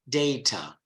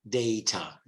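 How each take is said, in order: First: It is said with a British pronunciation. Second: The same.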